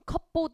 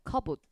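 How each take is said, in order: First: The p sound is clearly pronounced. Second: The p sound is silent. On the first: The speaker calls it wrong. "컵보드 이렇게 읽으시면 안 돼요" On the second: The speaker calls it right. "P는 묵음이에요"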